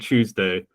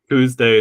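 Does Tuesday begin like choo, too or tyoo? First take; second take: choo; too. First: The word starts with a ch sound. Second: The word starts with a plain t sound. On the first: "I guess I coalesce mine" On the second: "you leave the yods off all the time"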